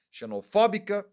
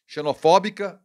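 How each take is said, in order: First: Xenofóbica, stress on fó, pitch up. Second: Xenofóbica with stress on fó, said louder; correct stress. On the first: Showing viewers the stressed syllable, Xenofóbica with fó stressed. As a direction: hit the fó in Xenofóbica. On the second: Correcting his own slip, stresses fó in Xenofóbica. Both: Shown as a demonstration. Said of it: "o acento agudo é no O do fó".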